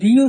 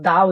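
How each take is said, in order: First: The word ends in an 'ee' vowel. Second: The word ends in an 'uh' vowel. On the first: It comes before a vowel. "কখন আমরা দি উচ্চারণ করব" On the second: It comes before a consonant. "কখন আমরা দা উচ্চারণ করব"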